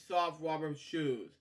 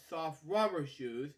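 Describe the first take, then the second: No difference in how they are said.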